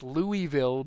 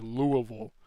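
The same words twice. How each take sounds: First: It is said in a plain, careful way. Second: It is said mumbled, in a Southern local accent.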